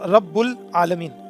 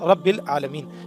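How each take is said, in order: First: The vowel after 'rabb' is 'u'. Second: The vowel after 'rabb' is 'i'. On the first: The speaker calls it wrong. "यहाँ जो मिस्टेक है वो ये है कि ये जो रब है" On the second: The speaker calls it right. "ये इसको जर में ले जाएगा"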